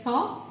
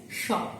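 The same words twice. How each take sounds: First: "Sa" with a plain s sound; Sa pronunciation. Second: "Sha" with a sh sound; Sha pronunciation. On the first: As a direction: say "Sa" with an s, not sh. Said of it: "can be pronounced as Sa". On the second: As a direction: say "Sha" with sh, not a plain s. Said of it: "sometimes can be pronounced as Sha". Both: Shown as a demonstration.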